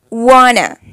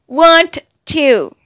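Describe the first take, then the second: First: It is blended into one reduced word. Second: It is said as two full separate words. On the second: "Then want to"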